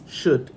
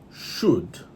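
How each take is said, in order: First: The word has a reduced schwa vowel. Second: The word has a full, unreduced vowel. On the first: "the schwa here, should" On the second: "instead of should"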